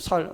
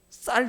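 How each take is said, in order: First: The word begins with a plain, soft s sound. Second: The word begins with a tense, doubled s sound. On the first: This is how a Gyeongsang dialect speaker says it. The speaker calls it wrong. "나는 쌀을 그냥 살이라고 했거든요" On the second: This is the standard pronunciation. The speaker calls it right. "쌀 이게 발음이 안 돼"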